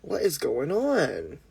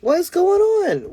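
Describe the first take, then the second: First: Slow, soft, swooping question; puzzled. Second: Very high, drawn-out wail; slow squealed complaint about a glitch; high-pitched exasperation. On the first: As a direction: draw it out softly, rising then falling in puzzlement. Puzzled by lagging phone. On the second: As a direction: hold it way up high, then drop at the end. Exasperated by lagging phone. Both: Real, not acted.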